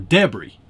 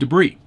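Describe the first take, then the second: First: The word is said the Formula One way. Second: The word is said in the speaker's usual way.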